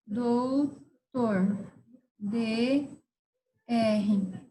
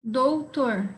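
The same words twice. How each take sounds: First: DOUTOR split into two long syllables; slow dictation. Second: Said in the usual way. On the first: Shown as a demonstration. Teacher dictating a word to abbreviate, doutor in slow syllables. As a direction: draw out doutor with a gap between dou and tor.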